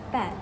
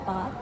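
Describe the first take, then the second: First: The vowel is short and front. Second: The vowel is long, open and back. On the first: "American uses a short front vowel" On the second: "British use a long open back vowel"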